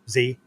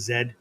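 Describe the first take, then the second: First: The letter is said the American way, zee. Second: The letter is said the British way, zed.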